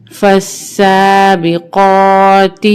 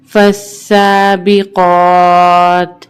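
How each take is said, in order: First: فالسابقات recited with a short final "ti"; full ending, no pause form. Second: فالسابقات with long held "aa", stopped on bare t; waqf pause form. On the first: Teacher reading on before waqf, فالسابقات ending in "ti". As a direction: voice the last letter of فالسابقات as "ti". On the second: Teacher showing waqf, فالسابقات ending in plain "t". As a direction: stretch فالسابقات, then close on vowelless "t". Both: Shown as a demonstration. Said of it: "وقفاً".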